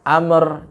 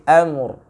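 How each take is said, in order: First: The final consonant is released fully and clearly. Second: The final consonant is released faintly and softly. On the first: The speaker calls it wrong. "jangan membaca dengan idhar" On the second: The speaker calls it right. "sedikit saja, sepertiga suara mungkin ya yang keluar"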